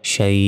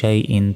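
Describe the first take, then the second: First: The word ends cut off after 'shai'. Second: The word ends with an added 'in' sound. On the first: The reader stops on this word. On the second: The reading continues without stopping.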